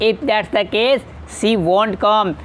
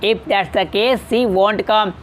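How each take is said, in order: First: The negative is contracted into one short word. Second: The negative is contracted into one short word.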